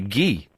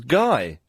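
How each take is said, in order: First: The name is said with a French pronunciation. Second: The name is said with an English pronunciation. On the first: "the French say Guy" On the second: "How could you mispronounce Guy?"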